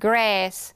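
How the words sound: It is said with an American accent. "it's the American one"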